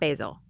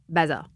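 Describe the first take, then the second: First: It is pronounced like the herb basil. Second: It is pronounced differently from the herb basil. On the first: The speaker calls it wrong. "not basil" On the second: The speaker calls it right. "It's Basil"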